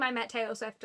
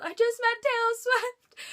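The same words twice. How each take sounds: First: Said in the usual way. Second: High, loud, drawn-out re-enacted scream; retold scream. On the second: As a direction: scream it out as you did at the arena. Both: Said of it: "and then I scream".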